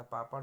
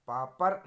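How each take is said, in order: First: Said in the usual way. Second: पापड़ said loudly as 'paapar'; plain r closing पापड़; r for flap. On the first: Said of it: "होता है". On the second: Shown as a demonstration. Teacher showing an error, पापड़ with simple r, loud. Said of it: "नहीं होता".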